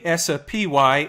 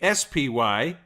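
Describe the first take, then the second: First: An extra vowel sound is inserted between letters. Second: The letters are said plainly without extra sounds. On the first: The speaker calls it wrong. "I just acquired the Italian accent" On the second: The speaker calls it right. "it's the S P Y"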